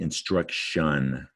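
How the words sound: It is said with an English pronunciation. "but we say"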